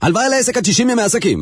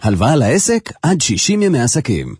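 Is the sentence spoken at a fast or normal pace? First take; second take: fast; normal. First: It is spoken at a faster pace. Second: It is spoken at a normal pace.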